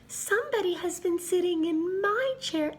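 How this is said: It is said in a high, small voice. A little bear is speaking.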